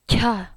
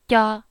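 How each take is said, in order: First: The syllable comes with a strong puff of air. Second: The syllable is crisp with little air. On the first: "that's how the aspiration sounds like. Lots of air" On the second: "I'm clear, I'm about to go"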